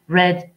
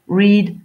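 First: The vowel is short, like 'red'. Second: The vowel is long, like 'reed'. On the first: This is the past form of the verb. "se prononcent comme la couleur rouge" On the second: This is the base form of the verb. "La base verbale de reads, c'est read"

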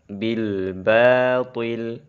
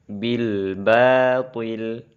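The two takes are said the same way.

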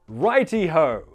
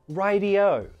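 First: The middle consonant is a crisp posh T. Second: The middle consonant is a soft D sound. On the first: It sounds too posh and overdone. The speaker calls it wrong. "if you want to use a posh RP sounding voice for this" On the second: It sounds soft and casual. The speaker calls it right. "it's a T, but we pronounce it like a D here"

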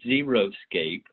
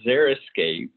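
First: The first part sounds like the word 'zero'. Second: The first part does not sound like 'zero'. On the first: The speaker calls it wrong. "It's not Xeriscape, as I've heard many people frequently call it. It's not zero landscaping" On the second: The speaker calls it right. "let me say that the word is Xeriscape"

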